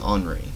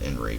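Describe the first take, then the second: First: The name is said with a French pronunciation. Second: The name is said with an English pronunciation. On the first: "French, French. Could be Henri" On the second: "We'll go with Henry for now"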